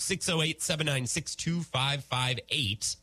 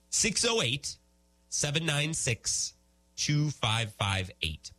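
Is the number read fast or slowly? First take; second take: fast; slowly. First: The number is read quickly. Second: The number is read very slowly.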